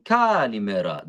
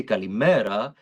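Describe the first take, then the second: First: Kalimera sung with misplaced stress; wrong stress. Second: Kalimera with stress on the me; natural stress. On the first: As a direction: put the accent in the wrong spot. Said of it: "That sounds weird". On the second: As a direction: say it the natural Greek way. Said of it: "They say". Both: Shown as a demonstration.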